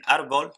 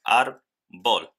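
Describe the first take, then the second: First: Said in the usual way. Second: "ar, bol" as two separate syllables; split into syllables. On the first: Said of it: "En árbol tenemos". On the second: Shown as a demonstration. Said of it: "son dos sílabas diferentes". ("ar, bol" separado en sílabas, con pausa)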